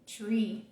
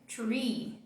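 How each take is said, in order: Both takes have the same delivery.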